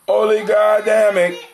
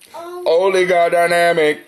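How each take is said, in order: First: The word is said without the 'dy' syllable. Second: The word is said with the 'dy' syllable. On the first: The speaker calls it wrong. "I ain't say oli. It's oligodamic" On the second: The speaker calls it right. "Actually, it's oligodynamic"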